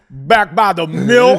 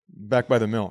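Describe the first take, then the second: First: It is said more aggressively and forcefully. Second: It is said in a plain, calm way.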